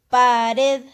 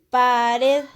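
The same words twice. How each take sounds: Both takes have the same delivery.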